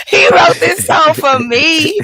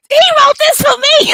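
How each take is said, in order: First: Sung slowly, louder and higher; sung swooning. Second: Much higher swooning falsetto; swooning fan. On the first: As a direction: croon it like a lovestruck fan. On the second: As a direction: gush like a smitten fan. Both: Retold or imitated.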